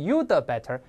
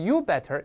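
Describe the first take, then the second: First: The d is released as an extra syllable. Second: The d is left out completely. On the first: "也不能you the better" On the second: "不能是you better"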